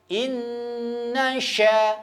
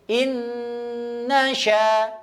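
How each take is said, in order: The two takes are said the same way.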